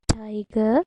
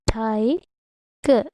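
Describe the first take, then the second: First: Said in the usual way. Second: TIGER split into two beats, ti - ger; syllable by syllable. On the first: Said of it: "I have given more examples like that". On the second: Shown as a demonstration. Teacher giving a two-syllable example, syllable by syllable. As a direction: break TIGER in the middle with a pause. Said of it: "Two syllables".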